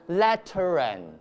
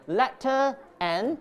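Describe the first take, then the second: First: An R sound links the two words. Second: A glottal stop separates the two words. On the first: The speaker calls it right. "that's why we insert an R there" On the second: The speaker calls it wrong. "You can feel the glottal stop"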